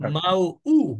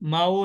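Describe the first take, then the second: First: A light glottal catch comes before the final u. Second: The vowels run together without any glottal catch. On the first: The speaker calls it right. "হামজা পেশ, উ হয়। একটু ধাক্কার মতো, হালকা ধাক্কার মতো।" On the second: The speaker calls it wrong. "মাউ না, মাউ বললে কিন্তু হামজা হচ্ছে উচ্চারণ হলো না।"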